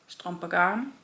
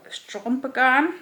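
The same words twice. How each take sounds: First: Said in the usual way. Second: English accent. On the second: Shown as a demonstration. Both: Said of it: "trying to do it in an English accent".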